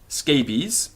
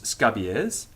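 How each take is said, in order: First: It is said with English pronunciation. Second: It is said with Latin pronunciation.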